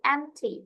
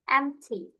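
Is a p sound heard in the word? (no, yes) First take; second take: no; no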